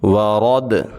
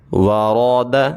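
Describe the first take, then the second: First: The word stops on the final consonant. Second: The word is read in full with a final vowel. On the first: "रुकना कैसे है" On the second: "अब इसको इकट्ठा"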